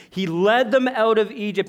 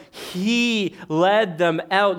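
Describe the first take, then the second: First: Said in the usual way. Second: Each word drawn out slowly; slowed for weight; slow emphasis. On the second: Shown as a demonstration. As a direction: lean on it, very slow.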